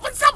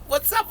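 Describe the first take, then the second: First: "What's up" way up high; "What's up" squealed very high; even higher take; squeaky What's up. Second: What's up jumped much higher; "What's up" pitched well up, rising; second take higher. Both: Shown as a demonstration.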